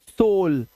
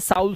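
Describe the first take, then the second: First: The vowel is an 'oh' sound. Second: The vowel is not an 'oh' sound. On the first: The speaker calls it right. "तो ओ यू का उच्चारण अब ओ हो जाएगा। जैसे सोल" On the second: The speaker calls it wrong. "अब इसे साउल सूल नहीं पढ़ना है"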